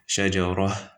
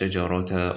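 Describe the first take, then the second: First: The word ends with an h sound. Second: The word ends with a ta sound. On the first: The speaker calls it right. "You say shajarah with a ha" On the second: The speaker calls it wrong. "you don't say"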